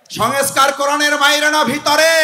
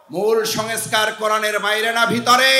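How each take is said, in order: First: High, loud call to the crowd; raised preaching voice; louder insistent question. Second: Said in the usual way. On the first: Real, not acted. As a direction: fire the question out to demand an answer.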